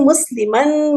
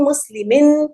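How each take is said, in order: First: Teacher says مسلمن ending in 'an' to show the accusative form. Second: Teacher says مسلمن ending in 'in' to show the genitive form. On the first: Teacher reciting the declension to students, stressing the final 'an'. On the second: Teacher reciting the declension to students, ending on 'in'. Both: Shown as a demonstration. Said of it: "آخر میں آپ کو ان، نون کی sound آتی ہے".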